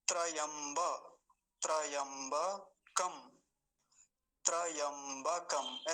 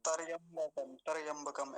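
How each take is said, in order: First: त्रयंबकम said very slowly with a quick half र in the cluster; slow teacher model of त्रयंबकम; correct careful pronunciation. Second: तरयंबकम with a full अ after the त; wrong pronunciation with an inserted vowel. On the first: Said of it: "ऐसा बोलेंगे". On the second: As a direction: demonstrate the mistake तरयंबकम, opening up the cluster. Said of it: "पूरा उच्चारण क्या होता है". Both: Shown as a demonstration.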